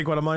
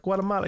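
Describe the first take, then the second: First: Said in the usual way. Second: Guatemala said the Spanish way, like kwah-teh-MAH-lah, pitched higher; Spanish accent. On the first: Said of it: "a Spanish accent". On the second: Retold or imitated. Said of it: "You say it with, like, a Spanish accent".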